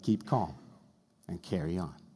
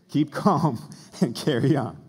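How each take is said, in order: First: It is said in the speaker's ordinary accent. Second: It is said in a put-on British accent.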